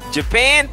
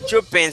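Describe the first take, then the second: First: The stress is on the second syllable. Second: The stress is on the first syllable. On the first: The speaker calls it right. "c'est pen nan qui a un accent" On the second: The speaker calls it wrong. "Si on dit Japan c'est pas anglais"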